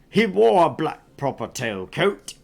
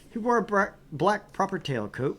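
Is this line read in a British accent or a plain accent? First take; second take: British; plain. First: It is read in a put-on British accent. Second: It is read in the speaker's ordinary accent.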